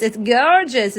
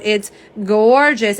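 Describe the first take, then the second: First: Attempted imitation of a friend's accent; Jill. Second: Said in the usual way. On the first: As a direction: have a go at a friend's accent on "gorgeous", not quite landing it. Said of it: "as, as Jill would say". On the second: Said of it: "as Jill would say".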